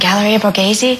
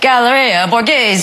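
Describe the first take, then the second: First: It is said in a plain non-Italian accent. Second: It is said in an exaggerated Italian accent. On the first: "I tried it again" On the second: "I did my best impression of an Italian person"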